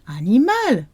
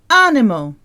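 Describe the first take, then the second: First: The stress is on the last syllable. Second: The stress is on the first syllable. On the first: "In French the stress goes at the end of the word" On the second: "in English we say animal"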